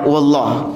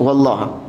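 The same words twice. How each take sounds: First: The final vowel is dropped. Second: The final vowel is dropped.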